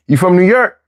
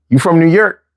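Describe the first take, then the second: First: "New York" again in Philly speech, slightly higher rise. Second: "New York" said the Philly way, like locals do. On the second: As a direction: drop "New York" into a Philly street accent. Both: Shown as a demonstration.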